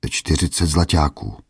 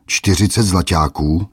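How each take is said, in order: First: A hint of timidity, "zlaťáků" falling away; lightly fearful old merchant; timid answer. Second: "Čtyřicet" stressed, squeaky rise on "zlaťáků"; mock the price in a squeal; mock-outraged squeak, louder; squeaked mockery. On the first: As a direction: answer meekly, afraid to ask. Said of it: "odvětil bázlivě". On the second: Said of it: "vypískl hromotluk".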